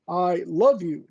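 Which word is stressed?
love. The stress is on the word love. It is love, not mere liking. "doesn't mean that I like you, it means I love you"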